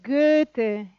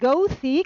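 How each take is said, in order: First: The vowel is said with rounded German ö. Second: The vowel is said the English-speaking way. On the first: The speaker calls it right. "es Goethe" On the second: The speaker calls it wrong. "no es Goethe, como dicen algunos ingleses y americanos"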